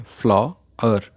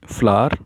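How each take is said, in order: First: फ्लॉवर said slowly, its two syllables pulled apart; split into syllables. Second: Said in the usual way. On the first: Shown as a demonstration. Teacher showing students the two syllables of फ्लॉवर, slow. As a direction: stretch फ्लॉवर out so each syllable is heard. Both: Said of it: "इसमें दो syllable हैं".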